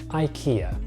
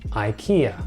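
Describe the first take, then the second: First: The name is pronounced the American English way. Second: The same.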